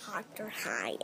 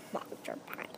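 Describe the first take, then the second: First: Breathy unvoiced whisper. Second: Silent unvoiced whisper. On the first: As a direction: whisper the name secretly. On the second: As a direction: barely breathe the name. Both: Child whispers the name.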